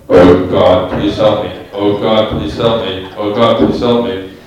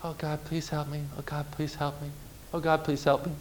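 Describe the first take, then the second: First: Booming deep amplified voice, much lower and louder; vast deep cosmic voice. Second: Feeble, very soft little prayer; barely audible, timid plea; weak quiet prayer. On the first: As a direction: boom it out like a voice from the heavens. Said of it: "The Holy Spirit takes the microphone". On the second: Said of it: "your prayers might kinda be like this". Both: Shown as a demonstration.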